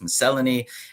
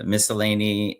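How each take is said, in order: First: It is said with a British pronunciation. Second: It is said with an American pronunciation. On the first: "In British English, it's miscellany" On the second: "I think in America it's pronounced"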